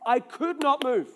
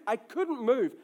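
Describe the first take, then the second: First: "not" picked out and leaned on; emphatic, separated "not" with a falling end; stress on "not". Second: Said in the usual way. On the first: Retold or imitated. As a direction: hit the word "not" in "could not".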